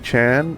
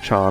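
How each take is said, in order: First: The word is said with an English pronunciation. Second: The word is said with a Japanese pronunciation. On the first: "So should it still be Chan" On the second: "They would have pronounced it Chan as Japanese people"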